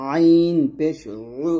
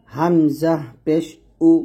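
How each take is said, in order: First: "আইন পেশ উ" with উ squeezed in mid-throat; ayn with pesh. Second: "হামজা পেশ উ" spelled slowly, clean glottal উ; hamza with pesh. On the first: Teacher contrasting ayn with hamza, "আইন পেশ উ" pressed mid-throat. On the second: Teacher showing hamza with pesh, "হামজা পেশ উ" slow and unsqueezed. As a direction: say "হামজা পেশ উ" slowly, উ unpressed from throat's start. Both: Shown as a demonstration. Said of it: "এরকম, ঠিক আছে?".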